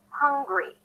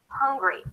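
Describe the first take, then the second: No difference in how they are said.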